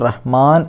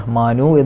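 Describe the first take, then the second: First: The word ends on a bare consonant. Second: The word ends with a short vowel sound. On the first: The recitation stops at this word. "നിർത്തുകയാണെങ്കിൽ റഹ്മാൻ എന്ന് പറഞ്ഞ് നിർത്തണം" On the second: The recitation continues without stopping. "റഹ്മാനു എന്ന് പറഞ്ഞിട്ട് ഓതിപ്പോണം"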